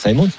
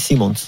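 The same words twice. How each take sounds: First: The name is said with French pronunciation. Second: The name is said with Dutch pronunciation. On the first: This is how the others say it. "Vous voulez, on peut dire Simons. Comme vous voulez" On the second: This is how it is said in the player's home country. "aux Pays-Bas, on dit Xavi Simons"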